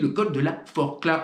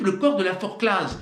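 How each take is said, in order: First: "Forclaz" said forkla; silent Z. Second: "Forclaz" with the final z sounded; the wrong way, z heard in Forclaz; Z pronounced. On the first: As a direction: drop the z of Forclaz. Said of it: "Vous dites le col de la Forclaz". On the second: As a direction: end Forclaz on a clear z. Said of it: "Vous dites pas le col de la Forclaz". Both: Shown as a demonstration.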